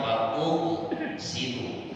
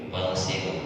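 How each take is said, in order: First: An extra vowel is heard before 'ghsilu'. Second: The syllables run straight together with no vowel. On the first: This is the underlying form before joining. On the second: This is the joined form used in reading.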